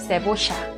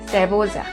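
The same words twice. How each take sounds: First: The ll is pronounced like sh. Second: The ll is pronounced like a y. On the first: "En Argentina" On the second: "en México"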